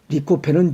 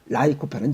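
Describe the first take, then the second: First: The first syllable is said like 'lee'. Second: The first syllable is said like 'lie'. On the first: This is the American way of saying it. "리코펜은 미국식 발음이고" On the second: This is the British way of saying it. "라이코펜은 영국식 발음이야"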